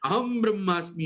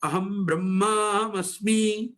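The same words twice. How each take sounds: First: The word aham is said on a high pitch. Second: The word aham is said on a low pitch. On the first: The speaker calls it wrong. "अहम ब्रह्मास्मि यो बोलते हैं। ये ये वेद में उच्चारण ही नहीं" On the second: The speaker calls it right. "अहम में ऊपर का स्वर नहीं बोला जाता, अहम ब्रह्मास्मि ऐसा बोला जाता है"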